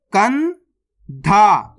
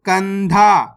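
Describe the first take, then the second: First: कंधा very slowly, kan rising, long pause, then dha; split into syllables. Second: Said in the usual way. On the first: Shown as a demonstration. Teacher breaking a word down for learners, split into syllables. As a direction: sound out कंधा in two separate parts. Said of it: "direct मात्रा का उच्चारण करके पढ़ेंगे". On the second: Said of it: "तो मिलके बन जाएगा".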